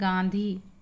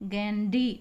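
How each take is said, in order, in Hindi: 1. बीच की d ध्वनि aspirated है, साँस के साथ। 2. बीच की d ध्वनि सादी है, बिना साँस के। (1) "जैसे अपन कहें गांधी" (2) "वो गैंडी डी का उच्चारण करते हैं"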